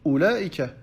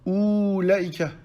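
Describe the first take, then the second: First: The first vowel is kept short. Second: The first vowel is held long. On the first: The speaker calls it right. "Non, on dit Ulaika" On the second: The speaker calls it wrong. "On n'allonge pas, on ne dit pas Ulaika"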